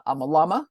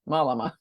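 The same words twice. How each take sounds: First: A Malama with the stress on LA, mal-LA-ma; stress on second syllable. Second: Malama as MAL-a-ma, first syllable hit; stress on first syllable. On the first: Reading a product name, stress on the middle. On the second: Correcting herself, stressing the first syllable. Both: Shown as a demonstration. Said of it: "you put the emphasis on the first".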